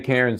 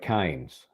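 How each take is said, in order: First: The vowel sounds like the one in 'cares'. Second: The vowel sounds like the one in 'canes'. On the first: Locals will not understand it. The speaker calls it wrong. "if you say Karens, they'll say, I don't know what the hell you're talking about" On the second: This is how locals say it. The speaker calls it right. "in Aussie land, it's more like Kynes"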